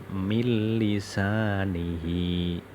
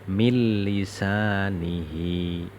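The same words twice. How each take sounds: No difference in how they are said.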